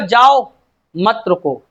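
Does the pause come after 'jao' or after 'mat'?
after jao. The pause comes after 'jao'.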